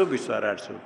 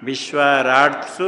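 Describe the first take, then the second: First: विश्वाराटसु repeated softly, lower, as an aside; teacher softly echoing विश्वाराटसु; quiet repeat. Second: विश्वाराटसु said slowly and firmly, each syllable clear; teacher stating विश्वाराटसु slowly and firmly; spelled out slowly. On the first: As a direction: murmur विश्वाराटसु back to yourself. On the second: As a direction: spell out विश्वाराटसु deliberately, a bit louder. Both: Shown as a demonstration. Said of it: "सप्तमी बहुवचन में क्या बनेगा?".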